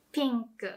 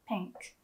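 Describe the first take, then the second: First: Pink with a smiling ee vowel; Japanese-style pink. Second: Said in the usual way. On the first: Shown as a demonstration. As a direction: smile on the i of pink. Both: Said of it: "Do you hear the difference?".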